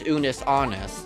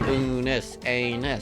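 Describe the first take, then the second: First: The second word sounds like 'honest'. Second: The second word sounds like 'anus'. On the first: The speaker calls it right. "but it's Unus Honest, not anus" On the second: The speaker calls it wrong. "I always just keep saying anus"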